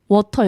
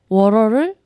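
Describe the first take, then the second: First: The middle consonant is a clear, crisp t sound. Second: The middle consonant is a soft flapped r-like sound. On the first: This is how the French-accented speaker said it. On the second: This is the usual American way of saying it.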